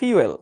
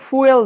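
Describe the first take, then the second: First: The f is followed by a y-glide before oo. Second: The f is followed directly by an oo sound. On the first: The speaker calls it right. "এটার উচ্চারণ হচ্ছে ফিউয়েল" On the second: The speaker calls it wrong. "এটার উচ্চারণ কিন্তু ফুয়েল না"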